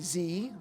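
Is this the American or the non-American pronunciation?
American. It is said the American way. "the letter, like Americans do"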